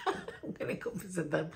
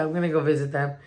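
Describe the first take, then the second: First: Hushed laugh through the words. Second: Said in the usual way. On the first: Real, not acted. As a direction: giggle it under the breath. Laughs about surprise visit.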